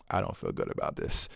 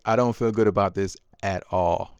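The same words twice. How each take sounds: First: Soft, unvoiced guilty murmur to himself; uneasy murmur. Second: Said in the usual way. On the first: Father alone in the car, soft guilty murmur. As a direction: say it under your breath, uneasy.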